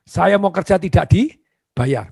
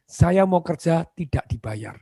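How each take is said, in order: First: Very slow and louder, each word weighed; emphatic plea. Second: Slow, sincere and measured; humble job applicant's plea; earnest plea. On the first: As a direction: press every word of "Saya mau kerja tidak dibayar" slowly and firmly. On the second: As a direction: say it slowly like you truly mean it. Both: Shown as a demonstration. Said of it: "catat ini, ngomongnya bagaimana".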